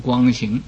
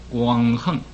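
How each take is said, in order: First: The second syllable is pronounced xing. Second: The second syllable is pronounced heng. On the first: The speaker calls it wrong. "没有读光行" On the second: The speaker calls it right. "所以我读个光横"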